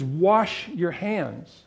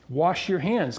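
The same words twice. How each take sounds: First: Scripture quote. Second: Said in the usual way. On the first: Shown as a demonstration. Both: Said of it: "Then he says".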